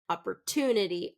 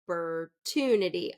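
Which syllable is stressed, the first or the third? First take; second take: third; third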